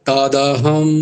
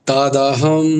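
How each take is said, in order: Both takes have the same delivery.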